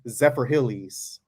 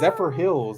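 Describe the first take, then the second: First: The last word has two syllables, ending in ee. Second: The last word has one syllable, with no ending. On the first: The speaker calls it wrong. "she says Zephyr Hillies" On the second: The speaker calls it right. "it's Zephyr Hills. There's not even a Y at the end of it"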